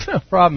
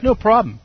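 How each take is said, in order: First: Laughing through the words. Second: Breezy, cocky no problem; mock confident. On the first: Retold or imitated. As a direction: chuckle it out, mocking the confidence. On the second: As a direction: brush it off like it's nothing. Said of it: "it's like".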